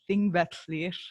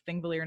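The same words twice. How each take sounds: First: The name is said with Icelandic-style sounds. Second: The name is said with English-style sounds. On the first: The speaker calls it right. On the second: The speaker calls it wrong.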